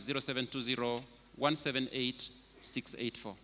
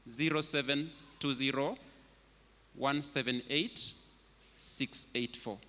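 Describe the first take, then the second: First: The number is read at normal speed. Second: The number is read slowly.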